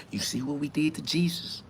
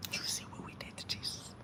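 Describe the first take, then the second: First: Softer hushed warning, still voiced; quiet threat. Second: A fast breathy whisper with no voice; whispered threat. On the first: Church elder warns the preacher about Jesus, hushed. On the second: Acted. Church elder repeats the Jesus threat to the preacher in a whisper. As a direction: whisper it like a dark secret.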